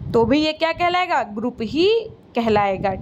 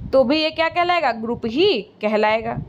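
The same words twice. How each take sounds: Both takes have the same delivery.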